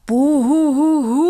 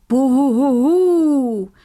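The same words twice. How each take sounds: First: Loud, high wavering ghostly "Buhuhuhu" rising at the end; spooky ghost howl. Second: Slow, louder, higher "Buhuhuhu" falling at the end; proper ghost howl. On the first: Acted. Headmaster shows his pupils a proper spooky ghost howl. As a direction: howl it out to scare the class. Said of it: "rief der Direktor auf einmal mit gruseliger Stimme". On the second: Shown as a demonstration. Narrator shows the rule howl, slow and louder. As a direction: show the howl a ghost must make. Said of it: "Ein Gespenst hatte „Buhuhuhu“ zu rufen".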